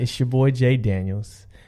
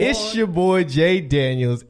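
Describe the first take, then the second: First: It is said calmly with low energy. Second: It is said with lively, high energy. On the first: The speaker calls it wrong. "You gotta pick up, pick up the uh, enthusiasm" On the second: The speaker calls it right. "That's how it should be from now on"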